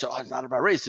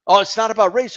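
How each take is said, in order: First: "Oh, it's not about race." repeated low and much softer; muttered mock repeat. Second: Sing-song mocking of "Oh, it's not about race."; mocking quote.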